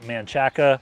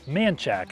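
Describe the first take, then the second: First: The name is said with three syllables. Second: The name is said with two syllables. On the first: This is how an outsider would say it. The speaker calls it wrong. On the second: This is how locals say it. The speaker calls it right.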